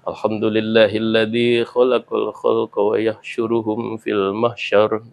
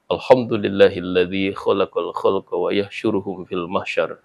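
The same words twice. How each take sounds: First: It is said with a flowing, melodic tune. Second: It is said loudly and firmly, like anger.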